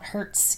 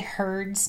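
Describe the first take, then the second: First: The word sounds like 'hurts', rhyming with 'shirts'. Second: The word sounds like 'hears' with a final s. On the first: It refers to causing pain. The speaker calls it wrong. "not hertz, because I don't want to hurt myself" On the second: It refers to listening. The speaker calls it right. "Now I say hertz"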